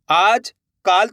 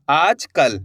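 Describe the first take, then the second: First: काल with a long aa, as a misreading; wrong long vowel. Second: कल with a short a after आज; correct short vowel. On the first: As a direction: stretch the second word काल to aa. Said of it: "थोड़ी होगा". (काल में गलत लंबा आ) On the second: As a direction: slowly read आज कल, short vowel in कल. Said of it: "इस तरीके से". (कल में छोटा अ, धीरे) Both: Shown as a demonstration.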